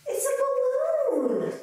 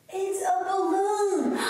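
First: High, slow amazed reveal; surprised. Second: Sung slowly; singing. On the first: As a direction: gasp out the surprise. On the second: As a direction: sing the words out. Same words sung after. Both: Acted.

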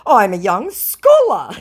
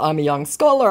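First: Slow, higher, louder boast; mock scammer voice. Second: Said in the usual way. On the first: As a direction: ham up the proud claim. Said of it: "he says". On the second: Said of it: "in response to".

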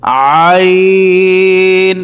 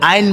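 First: আইন squeezed in the throat, very long; stretched AAAYN on one held note; correct ayn. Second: Short, ordinary আইন; quick AIN with no throat squeeze; wrong ayn. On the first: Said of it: "সঠিক উচ্চারণ হচ্ছে". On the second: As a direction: say আইন like an everyday word. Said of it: "আইন বললে সঠিক উচ্চারণ হবে না". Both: Shown as a demonstration.

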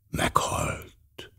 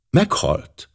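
First: Hushed whisper, much softer and lower; very softly. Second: Said in the usual way. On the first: A narrator's reading. Poirot echoes the news of the death in a whisper. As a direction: breathe the word almost soundlessly. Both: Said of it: "mondta nagyon halkan Poirot".

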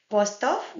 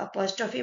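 First: Apostrophe ending on "-of"; French "apostof" for apostrophe; French term. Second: Apostrophe ending on "-fee"; English apostrophe with a final ee; English term. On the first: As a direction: say apostrophe French-style, no final ee. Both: Shown as a demonstration. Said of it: "means the apostrophe mark".

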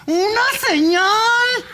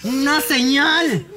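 First: High, slow shouted summons; shouted plea. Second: Said in the usual way. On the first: Acted. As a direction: cry out for a sign. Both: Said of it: "denos una señal".

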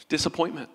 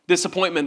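First: Much softer, dropped to almost nothing; quiet. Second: Said in the usual way. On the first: Shown as a demonstration. Pastor naming the cause of Thomas's doubt, hushed and soft. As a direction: let the word fall away softly.

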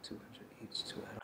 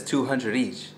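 First: Whispered Two hundred each in disbelief; whispered echo of the price; stunned whisper. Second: Said in the usual way. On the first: Retold or imitated. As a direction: breathe Two hundred each, barely audible. Repeating the price in shock. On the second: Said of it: "and she says".

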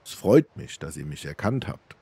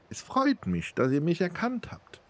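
First: Said in the usual way. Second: Much higher, put-on female voice; woman's voice. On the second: A narrator's reading. Namira thanks Almos for recognising her, in a high woman's voice. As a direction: pitch it right up for the beggar princess. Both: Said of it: "Das ist ja eine Frauenstimme".

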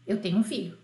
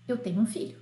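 Both takes have the same delivery.

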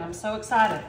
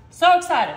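First: Said in the usual way. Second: Louder, punched SO excited; excited burst. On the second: Real, not acted. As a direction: bounce it with real glee.

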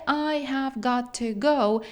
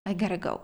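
First: I have got to go, each word slow and distinct; separated words. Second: I gotta go merged into one quick chunk; linked together. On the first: Teacher shows the unlinked version nobody uses, slowly. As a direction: pull I have got to go fully apart. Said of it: "так ніхто не розділяє". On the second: Teacher shows the linked result after joining the words. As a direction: link it all as I gotta go. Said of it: "злінкуємо". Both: Shown as a demonstration.

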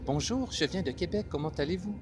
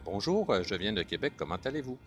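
First: Very high, lilting French of France; France French accent. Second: Québécois French accent. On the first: Contrasting France with Québec for learners, high-pitched French accent. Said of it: "c'est différent from France". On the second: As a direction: drop into natural Québécois. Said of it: "Puis, in Québec". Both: Shown as a demonstration.

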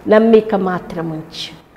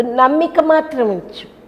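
First: Slow, steady, reassuring words; slow gentle assurance. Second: Higher and slower, pressing the word మాత్రం; raised urgent assurance. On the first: Jesus slowly reassuring Jairus, calm and steady. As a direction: say it slowly to calm a frightened father. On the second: Jesus urging Jairus to keep faith, raised and slow. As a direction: lift it up and lean on మాత్రం. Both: Retold or imitated. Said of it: "యేసే అంటున్నాడు".

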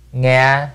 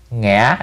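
First: "nga" said level, no tone mark; without tone. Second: "ngã" with the broken rising ngã tone. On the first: Teacher spells "nga" for typing learners, level. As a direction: sound out "nga" flat, plain level tone. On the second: Teacher adds the tone to "ngã", rising broken. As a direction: add the ngã tone to "ngã". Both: Shown as a demonstration. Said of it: "R là nó hỏi".

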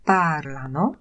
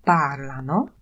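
First: "parlano" with the weight on PAR and the last two syllables light; stress on PAR. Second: "Parlano" stressed on the first syllable, PAR-la-no. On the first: Teacher repeating "parlano" for the class, stress on PAR. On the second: Teacher showing students where "Parlano" takes its stress. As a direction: lean on "Par" in "Parlano" and let "lano" fall away. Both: Shown as a demonstration. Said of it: "akcent w ostatniej osobie loro, oni, pada na trzecią sylabę od końca".

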